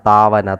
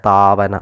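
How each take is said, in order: No difference in how they are said.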